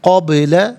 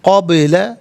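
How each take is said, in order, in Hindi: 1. 'b' की आवाज़ गूंज के साथ लौटती है। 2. 'b' की आवाज़ गूंज के साथ लौटती है।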